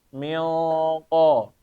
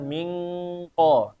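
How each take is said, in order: First: The nasal is thick and heavy, flowing into q. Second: The nasal is thin and light, like ng. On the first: The speaker calls it right. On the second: The speaker calls it wrong. "bukan ming ko, tanpa ditebelin"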